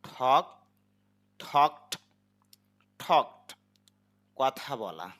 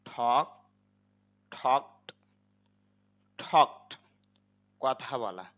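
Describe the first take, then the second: Both takes have the same delivery.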